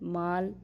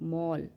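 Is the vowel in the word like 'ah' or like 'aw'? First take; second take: ah; aw. First: The vowel is an open 'ah' sound. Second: The vowel is a rounded 'aw' sound. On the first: The speaker calls it wrong. "ऐसे करके नहीं पढ़ेंगे" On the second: The speaker calls it right. "वहाँ पे हम ओ करके इसका उच्चारण करेंगे"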